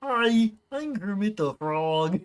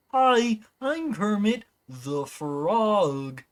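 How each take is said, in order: First: Lightly voiced Kermit the Frog, higher on hi. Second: Kermit the Frog with a high hi and slow up-down lilt; Kermit impression. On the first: Streamer testing his Kermit voice line for chat, light frog voice. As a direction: warm up the frog puppet voice with his catchphrase. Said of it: "I have to use that line to make sure I have the voice right". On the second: Showing chat Kermit's up-down inflection, slow frog voice. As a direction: stretch Kermit's sing-song ending, slowly. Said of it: "He does this little up-down thing at the end of his sentences".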